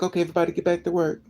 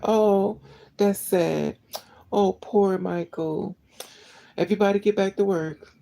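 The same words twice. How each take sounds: First: Fast, brushing it off like a careless boss; mock dismissive boss. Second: Higher, slow sarcastic pity that snaps to an order; mock fake sympathy. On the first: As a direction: rattle it off as if nothing happened. Mocks boss after death. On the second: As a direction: sneer a hollow condolence. Mocks fake sympathy of bosses.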